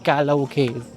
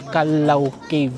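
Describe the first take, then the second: First: The syllables of Kalaw are run together. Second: The syllables of Kalaw are said separately. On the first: The speaker calls it wrong. "hindi Kalaw Cave" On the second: The speaker calls it right. "ang tamang pronunciation daw pala ng cave na to ay Kalaw Cave"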